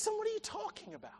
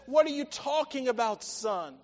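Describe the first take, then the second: First: High, soft, quick plea; pleading. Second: Firm, projected question to a son; emphatic challenge. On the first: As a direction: implore your son in a hushed, raised pitch. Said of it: "He's pleading with him". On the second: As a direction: press the question, dropping on "son". Father challenges son, first take. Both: Acted.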